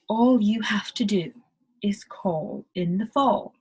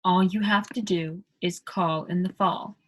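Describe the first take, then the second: First: "call" and "fall" with rounded O-like vowels, whispered ending; British accent, end on a whisper. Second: British accent, "call" and "fall" with a round aw; British vowels. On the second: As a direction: round the A's into O's. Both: Shown as a demonstration. Teacher demos British vowels to learners. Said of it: "all of those A's are sounding like O".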